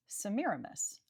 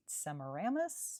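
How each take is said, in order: First: Semiramis as se-MI-ra-MIS, with stress on the second and fourth syllables; corrected pronunciation. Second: Semiramis stressed on the third syllable, SEM-i-RAM-is; first-guess pronunciation. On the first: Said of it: "emphases fall on the second and fourth syllables". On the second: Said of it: "my first guess is maybe". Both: Shown as a demonstration.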